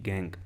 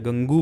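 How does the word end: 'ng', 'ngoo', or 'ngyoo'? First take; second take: ng; ngoo. First: The word ends cleanly on the 'ng' sound. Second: The word ends with an added 'oo' sound. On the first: The speaker calls it right. "Pronunciation में इसकी सिर्फ कहां तक आएगी" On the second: The speaker calls it wrong. "या गंगू मत बोलना"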